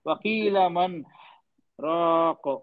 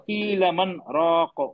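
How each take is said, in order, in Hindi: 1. 'man' के बाद सुनाई देने वाली सांस ली जाती है। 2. यह बिना रुके सीधे चलता है। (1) "सांस ले ली मैंने, ये गलत हो गया।" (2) "जल्दी हो गया"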